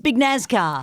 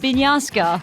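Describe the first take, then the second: First: The surname is said in an English-style form. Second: The surname is said in its original form. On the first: "when you anglicise it, it's Big Nazcar" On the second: "I said Binyaska"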